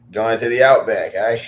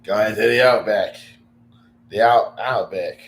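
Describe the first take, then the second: First: A bad try at an Australian accent; Aussie accent that doesn't land; Australian accent attempt. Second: Australian accent attempt. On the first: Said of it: "I can't do the accent". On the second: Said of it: "I, I can't do it".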